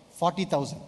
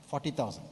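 First: Said in the usual way. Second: Much softer echo of the number; quiet repeat. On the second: Real, not acted. Pastor repeating the stadium figure to himself, quietly. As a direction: say it again under your breath.

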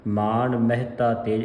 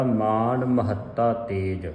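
First: Quicker reading with ਮਹਿਤਾ as meh-ta; wrong pronunciation. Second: Slow reading, ਮਹੱਤਾ as ma-HAT-ta; measured model of ma-hat-ta in ਮਹੱਤਾ; correct pronunciation. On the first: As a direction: run ਮਹਿਤਾ together as two syllables. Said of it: "ਇਸ ਤਰ੍ਹਾਂ ਨਹੀਂ ਪੜ੍ਹਨਾ". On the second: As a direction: double the ਤ of ਮਹੱਤਾ, slowly. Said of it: "ਸ਼ੁੱਧ ਉਚਾਰਨ ਹੈ ਇਸ ਦਾ". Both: Shown as a demonstration.

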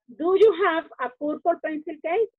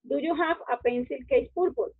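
First: Bien dicho, "purple pencil case"; orden correcto. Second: Como lo diría un hispanohablante, "pencil case purple"; orden equivocado. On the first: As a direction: modelo correcto para los niños. (la forma correcta, algo más fuerte) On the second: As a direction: ejemplo del error, dicho con calma. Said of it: "Digamos, nosotros pusiéramos". (el orden mal, "pencil case purple") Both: Shown as a demonstration.

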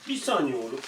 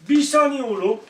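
First: Said in the usual way. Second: High, loud call to hold the dog back; sharp call to the dog. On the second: Real, not acted. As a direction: stop the dog mid-move, loud and high. Owner calming the dog.

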